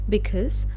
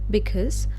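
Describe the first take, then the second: The two takes are said the same way.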